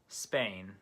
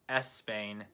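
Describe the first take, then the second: First: The word starts with a short s sound. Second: An extra vowel sound comes before the s. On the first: The speaker calls it right. "shorten your S sound until it sounds like a native English speaker" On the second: The speaker calls it wrong. "instead of Espain"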